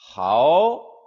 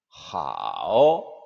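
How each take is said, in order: First: The pitch rises from middle to high. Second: The pitch dips low then rises.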